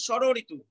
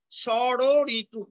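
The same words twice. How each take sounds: First: ষড়ঋতু in one piece, opening on "sh"; initial sh sound. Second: Slow ষড়ঋতু, broken into sho-ro-ri-tu; syllable-by-syllable ষড়ঋতু, very slow; initial sh sound. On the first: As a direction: say ষড়ঋতু as shoro-ritu, unbroken. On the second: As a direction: stretch each syllable of ষড়ঋতু, starting on "sh". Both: Shown as a demonstration. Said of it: "উচ্চারণ সবসময় হবে তালব্য স দিয়ে".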